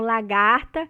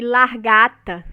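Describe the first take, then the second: First: The r comes after the second a. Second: The r comes after the first a.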